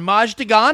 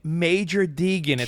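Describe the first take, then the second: First: The name is read as Maj de Gan. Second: The name is said in full as Major Deegan. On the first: The name was misread from its written abbreviation. The speaker calls it wrong. "it says M-A-J de Gan, Maj de Gan" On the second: The name is said as it is normally known. The speaker calls it right. "Oh, babe, Major Deegan"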